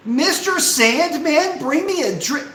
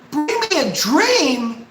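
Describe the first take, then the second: First: High, slow breathy crooning; mock airy singing. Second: High, slow airy sung mockery; mock airy singing. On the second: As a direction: croon it breathy to mock. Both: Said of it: "that airy sounding crap".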